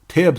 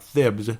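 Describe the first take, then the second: First: The name begins with a plain 't' sound. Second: The name begins with a 'th' sound. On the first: The speaker calls it right. "it's actually Tibbs now" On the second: The speaker calls it wrong. "I need to pronounce it better"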